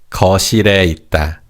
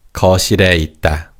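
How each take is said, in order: Both takes have the same delivery.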